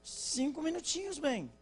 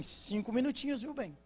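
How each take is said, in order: First: Much higher, stretched "minutinhos" as she stalls again; wife repeating herself in a higher mock plea; wife again, more exaggerated. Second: Sweetly raised voice, like a wife stalling her husband; coaxing wife promising five little minutes; wife's five minutes. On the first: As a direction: ham up the wife's second five minutes. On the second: Retold or imitated. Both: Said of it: "Ela vai sair e fala com ele assim".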